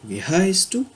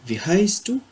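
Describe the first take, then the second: Both takes have the same delivery.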